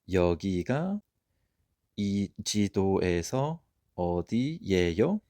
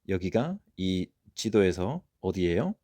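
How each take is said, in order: First: The sentence is spoken at a slower pace. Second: The sentence is spoken at a quicker pace.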